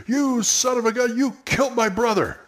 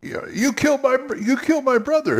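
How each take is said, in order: First: Pitched-up outraged cry; high angry accusation. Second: High, fast, outraged accusation; emotional accusation. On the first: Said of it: "one of the P Cs came up and said". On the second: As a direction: pour the feeling in, pitched high. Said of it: "Show it on your face". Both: Shown as a demonstration.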